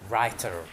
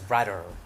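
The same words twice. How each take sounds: First: The middle consonant is a clear t sound. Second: The middle consonant sounds between t and d. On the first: "we say writer" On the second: "Sometimes it's pronounced writer. this de, which is not te, neither de"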